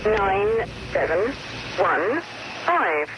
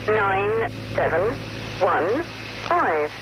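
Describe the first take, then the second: No difference in how they are said.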